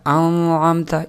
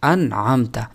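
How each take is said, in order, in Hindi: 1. n ध्वनि मिली हुई है और स्पष्ट रूप से उच्चारित नहीं है। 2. n ध्वनि स्पष्ट और साफ़ तौर पर उच्चारित होती है। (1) "इसी तरह नहीं" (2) "ज़ाहिर करके पढ़ा जाएगा"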